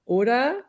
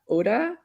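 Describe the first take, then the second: First: The final R sound is dropped. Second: The final R sound is dropped.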